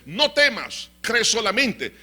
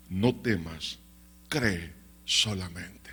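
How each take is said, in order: First: High, loud, emphatic command; rousing exhortation. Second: Low, slow, solemn comfort; calm reassurance. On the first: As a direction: proclaim it as a challenge to fear. Same words preached as rousing challenge. (exhortación fuerte, aguda y enérgica) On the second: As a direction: reassure with deep, unhurried calm. Jesus reassures the bereaved father. (consuelo grave, lento y solemne) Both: Acted.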